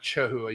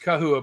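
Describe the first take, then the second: First: The word begins with a ch sound. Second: The word begins with a k sound. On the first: The speaker calls it wrong. "not chahua" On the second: The speaker calls it right. "It's kahua"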